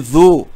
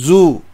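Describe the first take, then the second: First: The consonant is a soft th-like sound. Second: The consonant is a buzzing z sound. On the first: The speaker calls it right. "Ini zu" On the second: The speaker calls it wrong. "bukan zai, bukan zu"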